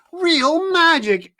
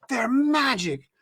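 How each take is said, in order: First: "Real magic" higher, louder, slower; boy insists to his mother, louder on "magic"; emphatic repeat. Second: "magic" drawn out and slowed; stressed magic. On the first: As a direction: push "magic" even harder, almost shouting. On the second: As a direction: lean on "magic" with wonder. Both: A narrator's reading.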